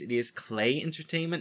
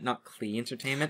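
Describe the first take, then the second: First: The first word sounds like the word 'clay'. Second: The first word does not sound like 'clay'. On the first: The speaker calls it right. "it is Clay Entertainment ... It's pronounced the same way" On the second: The speaker calls it wrong.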